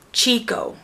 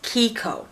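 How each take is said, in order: First: The word begins with a ch sound. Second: The word begins with a k sound. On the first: The speaker calls it wrong. "your brain's automatically going to ch because of the C H and say Chico" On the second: The speaker calls it right. "It's Kiko"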